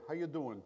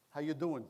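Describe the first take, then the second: First: Put-on light Long Island New York accent on How you doing; a friendly neighbor's Long Island greeting, How you doing; a hint of a New York accent, casual. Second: Said in the usual way. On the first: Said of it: "the strong New York, Long Island accent that I go". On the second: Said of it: "as my next-door neighbor used to ask us".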